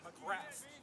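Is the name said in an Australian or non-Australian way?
non-Australian. The name is said in a non-Australian way.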